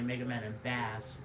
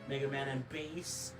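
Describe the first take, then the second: First: Bass is pronounced the way it is spelled. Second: Bass is given its usual standard pronunciation. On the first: The speaker calls it wrong. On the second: The speaker calls it right.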